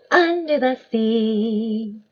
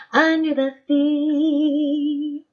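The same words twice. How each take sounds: First: Sung. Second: Slow, high sung line in a put-on voice. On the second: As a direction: sing it like a cartoon crab. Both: Shown as a demonstration. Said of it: "I might sing the words as well".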